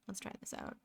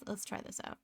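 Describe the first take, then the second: First: Soft unvoiced whisper. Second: Said in the usual way. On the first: Shown as a demonstration. Streamer murmuring to herself while drawing, whispered. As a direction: breathe it out as a whisper. Repeats line, second whispered.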